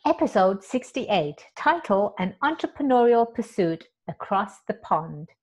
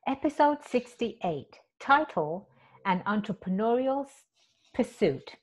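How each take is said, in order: First: Steady announcer read of "Episode sixty-eight, title, An Entrepreneurial Pursuit Across the Pond"; clean retake. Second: Stumbling first take. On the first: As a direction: read the title smoothly like a show intro. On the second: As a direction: read it haltingly, tripping over the title. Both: Shown as a demonstration. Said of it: "Let me say that again".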